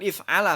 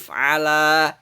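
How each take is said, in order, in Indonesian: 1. Vokal akhirnya pendek. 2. Vokal akhirnya dipanjangkan. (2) "agak panjang ada matnya"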